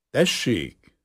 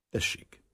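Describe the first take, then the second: First: Louder, higher call to come in. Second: Low-key, brief go-ahead; quiet assent. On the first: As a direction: answer a knock at the door. Calls to a knock at door. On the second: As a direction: give permission under the voice. Quietly permits a question. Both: Acted.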